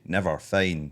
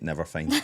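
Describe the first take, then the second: First: It is said as two separate words. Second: It is said run together as one word. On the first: The speaker calls it wrong. "two separate words sounds weird" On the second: The speaker calls it right. "say it as one word"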